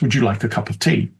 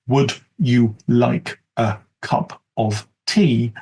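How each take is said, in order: First: Words are linked, with reduced schwa vowels. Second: Each word is said fully and separately. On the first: The speaker calls it right. "With some of the features of fast speech, uh, linking the uh sound schwa" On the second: The speaker calls it wrong. "as the standard"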